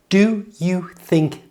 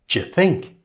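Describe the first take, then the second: First: Each word is pronounced fully and clearly. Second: 'Do you' blends into a single j sound. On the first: "Make every word as clear as you can" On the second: "They usually change it into a simple j sound, like this"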